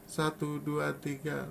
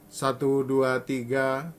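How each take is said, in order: First: The counting is spoken softly. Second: The counting is spoken at medium volume. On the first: "Lalu rembut" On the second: "Mungkin ini suara saya sedang"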